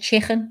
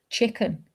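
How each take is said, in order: First: The word is pronounced in a relaxed local accent. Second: The word is pronounced carefully and deliberately. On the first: "instead of" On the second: "I can do it when I think about it"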